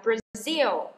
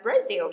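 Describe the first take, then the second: First: "Brazil" with the weight on the second syllable; stress on second syllable. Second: "Brazil" wrongly stressed as BRA-zil; "Brazil" with a weak second syllable; stress on first syllable. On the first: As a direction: say "Brazil" as bra-ZIL. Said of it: "nhấn vần thứ hai". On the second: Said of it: "chứ các bạn không đọc là Brazil nha". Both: Shown as a demonstration.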